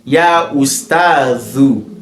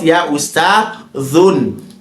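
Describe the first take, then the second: First: The word ends on a bare u vowel. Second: The word ends with an added n sound. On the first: The speaker calls it right. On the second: The speaker calls it wrong.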